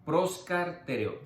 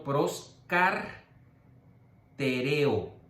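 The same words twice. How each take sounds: First: Proscartereo said as one smooth word; whole word. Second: Proscartereo split into slow separate syllables, pros-car-te-re-o. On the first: Teacher giving the proper whole-word Greek pronunciation. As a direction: say Proscartereo complete, in one flowing go. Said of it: "no se pronuncia así, tiene que ser completa". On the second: Teacher splitting the Greek word so students can write it, slow syllables. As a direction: spell out proscartereo very slowly, one syllable at a time. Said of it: "Lo estoy dividiendo para que lo puedan escribir". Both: Shown as a demonstration.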